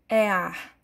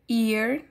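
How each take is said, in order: First: It is pronounced with Portuguese letter sounds. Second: It is pronounced with English sounds. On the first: The speaker calls it wrong. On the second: The speaker calls it right.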